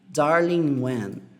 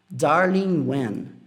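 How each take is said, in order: No difference in how they are said.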